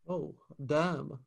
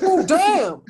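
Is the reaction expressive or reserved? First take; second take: reserved; expressive. First: The reaction sounds flat and held back. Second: The reaction sounds loud and openly emotional. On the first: The person keeps their feelings in. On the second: The person shows what they feel openly.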